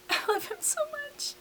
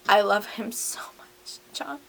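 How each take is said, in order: First: Tiny, very high and soft lovestruck squeak; swooning squeal. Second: Breathy whisper, no voice at all; whispered confession. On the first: Hamilton gushes to John in a high swoon. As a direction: squeal it like a smitten teenager. Hamilton's love letter, repeated. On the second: Hamilton confides to his boyfriend in a whisper. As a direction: whisper it like a secret love note. Hamilton's love letter to John. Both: Acted.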